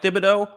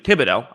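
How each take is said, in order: First: The 'th' is said as in 'thin'. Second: The 'th' is said as a plain 't'. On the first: The speaker calls it wrong. "Or excuse me" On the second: The speaker calls it right. "the silent H always throws me off"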